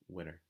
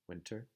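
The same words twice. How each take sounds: First: The T sound is dropped. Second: The T sound is clearly pronounced. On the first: "you hear more often people saying" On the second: "You don't really hear so much people saying"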